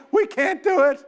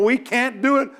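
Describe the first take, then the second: First: "We can't do it" pushed up high and whining; whiny high repeat. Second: Said in the usual way. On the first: Retold or imitated. Preacher mimics the frightened spies, high whine. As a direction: squeak the second "We can't do it" like a scared spy. Spies' report, second take higher.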